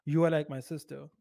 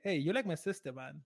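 First: Dead-serious, each word said in full. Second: Lighthearted. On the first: Man telling a date she is like his sister, serious. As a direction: say it earnestly, no joking tone. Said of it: "would be taken seriously". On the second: Man teasing a date that she is like his sister, lighthearted. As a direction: toss it off as friendly banter. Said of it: "Be lighthearted". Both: Shown as a demonstration.

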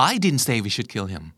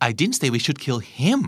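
First: "I" hit first and firmest, the rest slow and even; stress on I. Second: Slow, with "him" stressed and rising at the end. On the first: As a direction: lean on "I" at the start, drawn out word by word. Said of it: "ถูกปะ เน้นที่ฉัน". (เน้นคำว่า "I" ชัดๆ พูดช้าๆ) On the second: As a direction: push the weight onto "him" and lift it. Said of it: "แปลว่า เราควรฆ่าคนอื่นต่างหาก". (เน้นคำว่า "him" เสียงขึ้นท้าย) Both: Shown as a demonstration.

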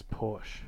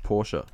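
First: Porsche as one syllable, "porsh"; everyday English Porsche. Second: Porsche in two syllables, "POR-shuh"; German pronunciation. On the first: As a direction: say Porsche with a silent final E. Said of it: "How do you pronounce Porsche?". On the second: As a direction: sound the final E of Porsche as a soft "uh". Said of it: "so it's pronounced Porsche". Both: Shown as a demonstration.

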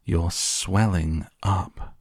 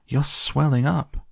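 First: Very slow, stretched-out horror; horrified scream. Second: High, swooping cry, rising at the end; alarmed scream. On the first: Mother cries out a second time, slow horrified scream. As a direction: draw out each word in disbelief. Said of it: "screamed Missus Beauregard again". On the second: Mother sees Violet swelling, high alarmed scream. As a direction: shriek it in shock, without full volume. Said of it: "screamed Missus Beauregard". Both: A narrator's reading.

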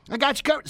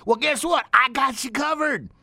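First: Said in the usual way. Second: Reassuring. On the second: Real, not acted. Reassuring a shy listener.

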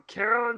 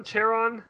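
First: Charon said with a hard K, KAIR-on; questioned pronunciation. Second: Charon said with CH as in chair; alternative pronunciation. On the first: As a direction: start Charon with a K sound, trying it out. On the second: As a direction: start Charon with a CH sound, trying it out. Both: Shown as a demonstration. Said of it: "is it Charon?".

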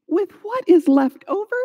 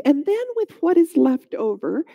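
First: Higher, disbelieving echo on "left over"; raised pitch, can't believe it; incredulous. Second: Said in the usual way. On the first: A narrator's reading. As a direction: throw "left over" back as a baffled question. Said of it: "She couldn't believe what he was saying". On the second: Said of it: "The stranger was completely unfazed".

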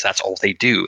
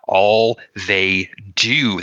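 First: Said in the usual way. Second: "All they do" stretched very slowly, word by word; drawn-out emphasis. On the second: Acted. Man rants about churchmen who only talk, "All they do" slow and emphatic. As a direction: lean on each word of "All they do", dragging it out. Rant, phrase repeated drawn out.

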